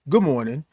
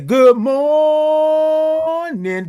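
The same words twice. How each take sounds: First: The greeting is said quickly and plainly. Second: The greeting is stretched out with lively energy. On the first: The speaker calls it wrong. "We don't just say good morning" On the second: The speaker calls it right. "Give me all the O's and R's and I N G's"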